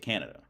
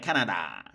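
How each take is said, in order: First: It is said with a native English accent. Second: It is said with a foreign-sounding accent. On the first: The speaker is really from there. The speaker calls it right. "You say Canada, right?" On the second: The speaker is not really from there. The speaker calls it wrong. "you do not say Canada, like Canada"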